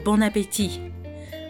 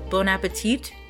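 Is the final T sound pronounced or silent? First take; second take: silent; pronounced. First: The final T sound is silent. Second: The final T sound is pronounced. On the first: This is how French speakers say it. The speaker calls it right. "like the T at the end is silent" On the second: This is how Americans say it. The speaker calls it wrong. "like with a T sound at the end"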